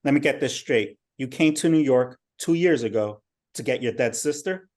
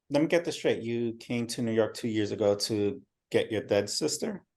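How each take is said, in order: First: Louder, skeptical interrogation; bad cop. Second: Gentle, understanding questioning; good cop. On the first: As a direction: push back hard, disbelieving. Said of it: "Um, bad cop". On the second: Acted. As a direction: soften it like a friendly cop. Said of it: "Good cop".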